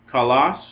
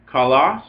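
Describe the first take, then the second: No difference in how they are said.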